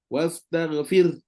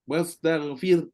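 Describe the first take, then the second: The two takes are said the same way.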